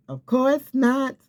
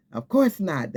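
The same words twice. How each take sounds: First: High, slow, emphatic scoff; of course not. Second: Said in the usual way. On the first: Acted. Preacher dismissing a stranger's false word, high slow scoff.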